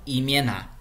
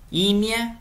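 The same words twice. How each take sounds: First: "imiena" stressed on the last syllable, NA; stress on final syllable. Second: "Imia" with a high, stressed opening I; stress on first syllable. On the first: ("imiena" com a tônica no final) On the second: ("Imia" com a tônica no início) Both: Shown as a demonstration. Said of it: "muda completamente a sílaba tônica".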